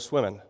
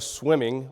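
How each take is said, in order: First: The final g sound is dropped. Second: The final g sound is pronounced. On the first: "we drop G's on everything" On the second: "we don't go swimming"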